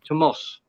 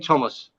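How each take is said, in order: First: The name is said in an Irish way. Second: The name is said in the usual English way. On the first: This is how people in Ireland say it. "they say Tomos" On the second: This is not how people in Ireland say it. "They don't say Thomas"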